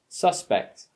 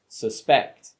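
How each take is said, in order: First: The stress is on the first syllable. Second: The stress is on the second syllable.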